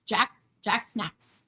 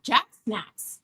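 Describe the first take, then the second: First: Slow drawn-out name. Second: Said in the usual way. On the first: Shown as a demonstration. Greeting viewer Jack in chat, slow drawn-out name. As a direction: drawl the name out slowly. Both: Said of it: "Hi, Jack".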